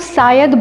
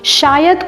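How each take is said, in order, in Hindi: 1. शब्द 's' ध्वनि से शुरू होता है। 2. शब्द 'sh' ध्वनि से शुरू होता है।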